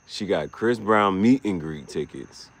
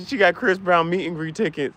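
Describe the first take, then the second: First: Slow, with meet leaned on hard; stress on meet. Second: Said in the usual way. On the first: Shown as a demonstration. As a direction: hit the word meet, drawn out. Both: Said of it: "Emphasis on the meet".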